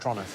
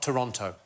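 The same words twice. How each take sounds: First: The word is said very quickly and clipped. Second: The word is said at a slower, fuller pace. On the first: "as quick as you possibly can, like it's a crime to say it" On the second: "not Toronto"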